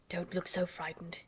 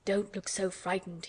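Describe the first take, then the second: First: Worried, soft. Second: Slow, earnest exclamation; exclaimed, slowed. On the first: Guardian gently reassures frightened Mary, soft and worried. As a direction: gently soothe a scared child. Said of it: "he said in a worried voice". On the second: Guardian earnestly exclaims to frightened Mary, slow. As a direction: urge her not to be scared, slowly. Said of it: "he exclaimed". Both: A narrator's reading.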